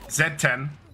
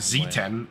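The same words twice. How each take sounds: First: The letter is pronounced as zed. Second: The letter is pronounced as zee.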